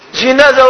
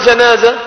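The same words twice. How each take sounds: First: The first syllable has an i vowel. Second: The first syllable has an a vowel. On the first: "جي" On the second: "جاء"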